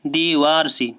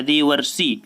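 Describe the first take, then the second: First: देवारसी with a long "aa" in the middle, "de-vaar-si"; long middle vowel. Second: देवर्षि with a short "a" in the middle, "de-var-si"; short middle vowel. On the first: Teacher reading the option to students, देवारसी said with long middle "aa". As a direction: stretch the second syllable of देवारसी to "vaar". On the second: Teacher correcting the option for students, देवर्षि said with short middle "a". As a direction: keep the second syllable of देवर्षि short, "var". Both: Shown as a demonstration. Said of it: "यहाँ पर आपका जो देवर्षि होता है".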